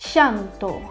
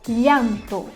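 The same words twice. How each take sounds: First: The ll sounds like an 'sh' sound. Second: The ll sounds like a 'ly' sound. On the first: "na Argentina, é quase como se fosse um C H" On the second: "É como se tivesse um L H"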